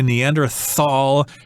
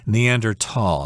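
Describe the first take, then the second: First: The word is pronounced the English way. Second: The word is pronounced the German way. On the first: "pronouncing it the English way" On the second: "in German you're supposed to say"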